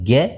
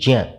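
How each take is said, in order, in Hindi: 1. इसमें आधुनिक रोज़मर्रा का सामान्य उच्चारण प्रयोग होता है। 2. इसमें शुद्ध पारंपरिक संस्कृत उच्चारण प्रयोग होता है। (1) "हम आजकल इसको बोलते हैं ज्ञ" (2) "बोलना चाहिए ज्ञ"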